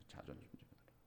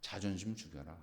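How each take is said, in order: First: Whispered. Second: Soft command. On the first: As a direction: whisper 자존심 죽여라 with no voice. (자존심 죽여라를 속삭이듯) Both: Shown as a demonstration. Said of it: "그 뭐냐면".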